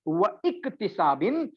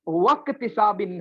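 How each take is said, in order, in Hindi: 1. Glottal break iktisabin से पहले आता है। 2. wa सीधे ktisabin में जुड़ जाता है। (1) "व इक्तिसाबिन नहीं होता है" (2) "वक्तिसाबिन होता है"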